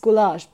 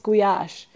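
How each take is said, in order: First: The word is said with an l sound. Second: The word is said with a y sound. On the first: This is how foreigners say it. "for you and for like all the foreigners, it's goulash" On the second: This is how Hungarians say it. "But for us, it's guyash, which is completely different"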